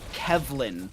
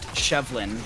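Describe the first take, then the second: First: The name begins with a K sound. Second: The name begins with an SH sound. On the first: The speaker calls it right. "It's Kevlin" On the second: The speaker calls it wrong. "not Shevlin"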